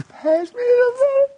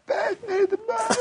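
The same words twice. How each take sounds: First: Very high, squeaky mock-crying child; exaggerated tearful kiddie whine; whining little girl. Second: Imitated thin, very high crying whine; mock-tearful child's plea at the table; whining little girl. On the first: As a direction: whine and cry it like a five-year-old. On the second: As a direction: squeal it like a whiny five-year-old. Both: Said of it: "kind of whining".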